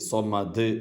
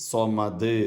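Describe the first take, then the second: Both takes have the same delivery.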